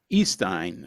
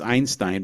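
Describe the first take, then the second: First: The first syllable sounds like 'ee'. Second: The first syllable sounds like 'eye'. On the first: The speaker calls it right. "I was just told how to pronounce it" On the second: The speaker calls it wrong. "I always kept thinking it's Einstein"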